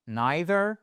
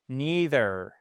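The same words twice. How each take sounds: First: NEITHER as NYE-ther, rising at the end; eye pronunciation. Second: NEITHER as NEE-ther, long ee; ee pronunciation. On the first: Teacher offers learners a choice, eye-vowel variant. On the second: Teacher offers learners a choice, ee-vowel variant. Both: Shown as a demonstration. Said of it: "soit I".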